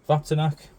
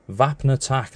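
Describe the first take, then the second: First: The name's sounds come out jumbled and garbled. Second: The name's sounds come out in clear order. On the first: The speaker calls it wrong. "I've butchered the pronunciation again" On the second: The speaker calls it right. "not Vaptanac"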